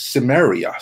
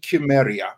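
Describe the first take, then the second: First: The name gets its modern English pronunciation. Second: The name gets its older, original pronunciation. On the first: This is how English speakers say the name today. "in modern day English, it's Cimmeria" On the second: This is how the name was said originally. "it should be Chimeria. That's how the correct pronunciation really is"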